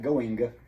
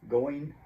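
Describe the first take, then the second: First: The final g sound is clearly heard. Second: The final g sound is dropped. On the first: The speaker calls it wrong. "it doesn't sound like going" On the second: The speaker calls it right. "you don't really hear the G"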